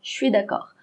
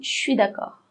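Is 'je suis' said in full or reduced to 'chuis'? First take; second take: reduced; reduced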